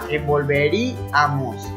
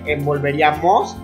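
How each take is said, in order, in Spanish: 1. La sílaba tónica cae antes de la última sílaba. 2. La sílaba tónica cae en la última sílaba.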